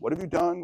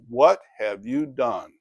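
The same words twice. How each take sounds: First: The question sounds friendly and positive. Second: The question sounds accusing and disapproving. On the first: The listener is simply being asked about progress. "it could be a more positive kind of" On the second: The listener is being blamed for something bad. "this is not a "well done"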